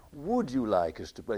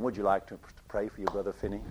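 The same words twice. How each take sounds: First: Said in the usual way. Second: Low mock American voice; American accent. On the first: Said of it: "He was American". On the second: Prayer meeting leader asking Finney, in an American accent. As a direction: put on a rough American accent, pitched well down. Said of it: "Sorry, that was an American accent".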